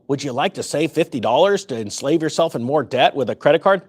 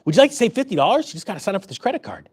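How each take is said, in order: First: Blunt mock cashier pitch in the usual pitch; not-nice sales pitch. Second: Quick, sweet mock cashier upsell; much nicer pitch. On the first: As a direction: parody a store clerk's upsell, not sweetened. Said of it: "They actually don't say it that way". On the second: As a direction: make the sales offer sound nice, rattled off lightly. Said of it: "They say it much nicer".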